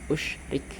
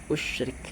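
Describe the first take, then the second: First: The word begins with an u vowel. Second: The same.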